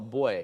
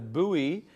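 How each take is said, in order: First: The word sounds exactly like boy. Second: The word does not sound like boy. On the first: "the British people call it boy" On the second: "So there's buoy"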